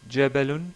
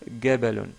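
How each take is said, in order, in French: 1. Il commence par un son j. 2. Il commence par un son g dur. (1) "au lieu de dire" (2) "ils disent gabalun"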